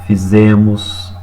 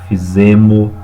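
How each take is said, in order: First: The final S is pronounced. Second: The final S is dropped. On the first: The speaker calls it right. "o correto" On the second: The speaker calls it wrong. "o errado, né, ou a omissão do S no final da palavra"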